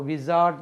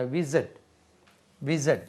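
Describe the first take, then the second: First: विज़ार्ड with a long aa in the middle; the mistaken विज़ार्ड; wrong pronunciation. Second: विज़र्ड with a short er, wiz-erd; correct pronunciation. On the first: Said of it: "वो विज़ार्ड नहीं होता". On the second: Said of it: "विज़ार्ड नहीं होता". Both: Shown as a demonstration.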